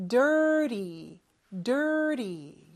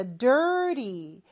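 First: Dirty said with a light flap instead of a hard T; flapped T in dirty. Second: Dirty with the T flapped like a light D; dirty, T almost an R-like tap; soft T in dirty. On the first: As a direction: let the T in dirty flick off the palate. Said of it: "이렇게 발음하면 돼요". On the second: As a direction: say dirty with the tongue tapping the roof, T softened. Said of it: "T 발음을 좀 약하게 하죠". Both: Shown as a demonstration.

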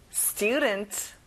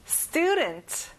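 First: Said in the usual way. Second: "student" with stu punched high; stress on stu. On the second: Shown as a demonstration. Teacher showing students where the stress falls, stu hit high. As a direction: lift and hit the first syllable of "student". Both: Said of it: "stew에 강세를 넣어보세요".

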